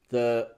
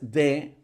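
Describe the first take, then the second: First: The word starts with a soft th sound. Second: The word starts with a hard d sound. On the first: The speaker calls it right. "este va a ser un sonido débil" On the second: The speaker calls it wrong. "no es de"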